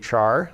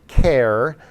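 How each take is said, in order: First: It begins with a ch sound, like char. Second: It begins with a k sound, like care. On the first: It follows the spelling. "Most people just say char" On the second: It follows the sound of character. "or care"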